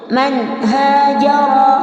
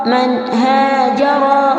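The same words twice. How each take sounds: Both takes have the same delivery.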